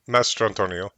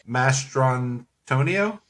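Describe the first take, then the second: First: Mastrantonio said as one quicker, sure word, accent correctly placed; corrected stress. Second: Mastrantonio drawn out slowly, accent misplaced, rising unsurely at the end; misplaced stress. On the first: Shown as a demonstration. Co-host corrects the host's attempt, Mastrantonio in one confident, smooth run. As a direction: say Mastrantonio smoothly as a statement, without a questioning rise. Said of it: "what is it then?".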